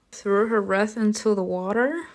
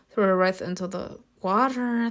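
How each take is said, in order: First: WATER lifted at the end as a question; questioning rise. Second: Said in the usual way. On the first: Real, not acted. Player rereads the wreath choice, questioning rise on WATER. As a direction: turn it into a question, rising on WATER. Doubting the choice just read out.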